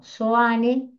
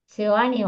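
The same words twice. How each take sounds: First: Soane without the e after the S; corrected pronunciation. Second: Seoane with an extra e after the S; mistaken pronunciation. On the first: Lecturer correcting the collector's surname, corrected pronunciation of Soane. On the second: Lecturer misreading the collector's surname, mistaken pronunciation. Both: Real, not acted. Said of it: "o, no, perdón".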